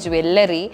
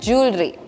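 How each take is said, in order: First: The word starts with a 'jwe' sound. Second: The word starts with a 'jew' sound. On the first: The speaker calls it wrong. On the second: The speaker calls it right.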